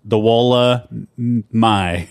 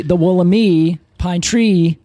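First: Very slow "Wollemi", held back before a final "my"; teasingly drawn out. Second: "Wollemi" ending in "mee"; imitated mispronunciation. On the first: Shown as a demonstration. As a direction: stretch "Wollemi", pausing before the last syllable "my". Teasing pause before agreed pronunciation. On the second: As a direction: mimic co-host saying "Wollemi" with a final "ee". Imitates the feared other pronunciation.

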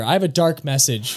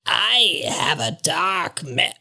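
First: Said in the usual way. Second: Breathy, slow whispered raven voice; raspy raven whisper. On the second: Acted. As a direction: hiss it like a croaking bird.

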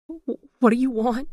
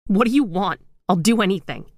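First: Higher, slow frightened stammer; terrified, voice climbing. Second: Desperate pleading. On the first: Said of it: "she stammered". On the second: Gail begging the phantom. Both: A narrator's reading.

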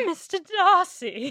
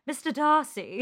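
First: Slow, higher, swooning British "Mister Darcy", rising on "Darcy"; British accent. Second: A swooning British "Mister Darcy", dipping on "Darcy"; British accent. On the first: Host redoing her half bad British "Mister Darcy", slow swooning British accent. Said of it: "half bad British accent". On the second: Cohost imitating the host's British slip, swooning British accent. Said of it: "you just went". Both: Retold or imitated.

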